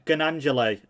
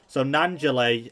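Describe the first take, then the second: First: The name is said with a G sound. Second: The name is said without a G sound. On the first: The speaker calls it wrong. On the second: The speaker calls it right.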